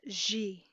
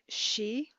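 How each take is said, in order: First: It starts with a voiced j sound. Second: It starts with a voiceless sh sound. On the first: "like je with a voice as well" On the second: "she with a low tone"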